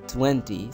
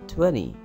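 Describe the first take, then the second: First: The middle consonant is a clear T sound. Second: The middle consonant is a soft D sound. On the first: The speaker calls it wrong. "Don't say 20" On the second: The speaker calls it right. "say 20"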